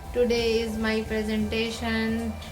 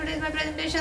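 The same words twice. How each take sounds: First: It is spoken very slowly. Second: It is spoken very fast.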